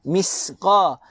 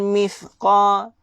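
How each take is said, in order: First: The consonant is a hissing 's' sound. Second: The consonant is a 'th' with the tongue out. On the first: The speaker calls it wrong. "jangan sin" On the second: The speaker calls it right. "Baca dengan cara keluarkan lidah sedikit"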